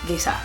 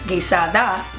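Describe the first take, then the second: First: The final 'da' syllable is left off. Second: The word ends with a full 'da' syllable.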